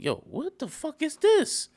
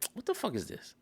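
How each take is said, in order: First: It sounds amazed and impressed. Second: It sounds confused and put off.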